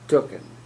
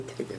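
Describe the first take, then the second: First: The first syllable has an 'oo' vowel. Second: The first syllable has an 'ay' vowel. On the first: The speaker calls it wrong. "not tooken" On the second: The speaker calls it right. "you want to say taken"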